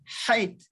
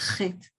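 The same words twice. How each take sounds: First: It begins with a guttural h sound. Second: It begins with a scraping ch sound. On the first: This is the original, older sound. "This is a guttural ha" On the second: This is how it is said today. "chet was not always chet"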